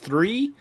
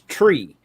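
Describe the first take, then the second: First: The word begins with a th sound. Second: The word begins with a plain t sound. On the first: "When she says three" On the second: "it's tree"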